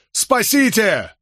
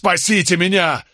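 First: Very high, slow desperate scream of Спасите; drawn-out scream. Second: High desperate yell; yelling at the top of his lungs. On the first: Condemned man screams for rescue once more. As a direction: stretch Спасите into a long wail. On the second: Condemned man yells to the narrator and Nicholas for rescue. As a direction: scream for rescue. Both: A narrator's reading. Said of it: "заорал во всю глотку".

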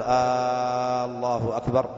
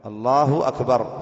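First: Opening "آ" of "الله أكبر" held very long; "آالله أكبر" with an overlong start, rising at the end; wrongly stretched hamza. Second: "الله أكبر" with a short first vowel and long "لا"; slow "الله أكبر", falling at the end; correct short hamza. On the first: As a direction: drag the first vowel of "الله أكبر". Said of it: "فلا يقول". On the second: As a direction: start "الله أكبر" crisply, no stretch on the hamza. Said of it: "فلا يمد همزة الاستفهام". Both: Shown as a demonstration.

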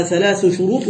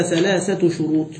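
First: ثلاث شروط said thalaathu shuroot, no ta; without feminine ending. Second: ثلاثة شروط said thalaathatu shuroot; with feminine ending. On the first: Teacher tests students on number agreement, ثلاث without the ta. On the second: Teacher offers the correct agreement, ثلاثة with its ta sounded. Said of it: "نعم، صح". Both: Shown as a demonstration.

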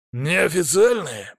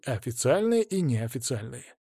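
First: Slow, higher echoed question; questioning familiar. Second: Said in the usual way. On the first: A narrator's reading. Familiar querying the word неофициальные, slow and higher. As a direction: draw НЕОФИЦИАЛЬНЫЕ out slowly, pitched up in query. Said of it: "проговорил фамильяр".

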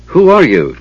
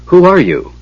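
First: Raised-pitch challenge; called out. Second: High, amazed question; astonished gasp. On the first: Tanis calling to the unseen voice, challenging. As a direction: call into the dark, mildly raised. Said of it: "Tanis called". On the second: Knight questioning the keeper of Huma's lance, astonished. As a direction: ask in startled awe, pitched up. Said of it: "Storm gasped". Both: A narrator's reading.

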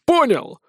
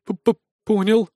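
First: High, irate check; angry demand. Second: Slow, stuttering assent; nervous stammer. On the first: Acted. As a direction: demand confirmation from a subordinate. Colonel demands that assistant understands. (гневно требовать ответа) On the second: A narrator's reading. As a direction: stumble on the first consonant, cowed. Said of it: "кивнул помощник". (испуганно заикаясь)

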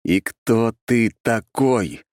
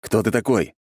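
First: И кто ты такой? each word separate and slow; each word clipped. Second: Said in the usual way. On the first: A narrator's reading. Narrator repeats his demand to the creature, slowly and clipped. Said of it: "чеканя каждое слово".

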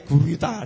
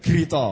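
First: "gurita" with u and a final a; Indonesian pronunciation. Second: "gerito" with short first vowel, final o; Javanese pronunciation. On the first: Explaining the word to the congregation, Indonesian pronunciation of "gurita". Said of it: "bahasa Indonesianya gurita". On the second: Explaining the word to the congregation, Javanese pronunciation of "gerito". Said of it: "di Jawa ki dadi". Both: Shown as a demonstration.

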